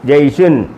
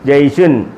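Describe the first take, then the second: The two takes are said the same way.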